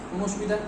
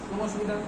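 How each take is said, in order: No difference in how they are said.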